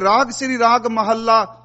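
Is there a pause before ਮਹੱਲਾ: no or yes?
no. The final word runs on without a pause. The final word is joined to the raga name. The speaker calls it wrong. "ਇਹਦਾ ਉਚਾਰਨ ਕਦੀ ਰਾਗ ਵਾਲੇ ਪਾਸੇ ਜੋੜ ਕੇ ਨਹੀਂ ਕਰਨਾ"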